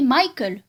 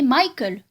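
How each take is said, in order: First: The name is said the English way. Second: The same.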